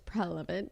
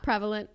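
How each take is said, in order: First: The L sound comes before the V sound. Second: The R sound comes before the L sound. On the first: "It's prelevant" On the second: "It's not prevalent"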